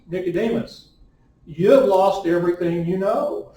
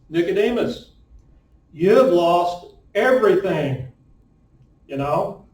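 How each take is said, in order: First: It runs straight through to the end. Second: It breaks before a questioning "you know".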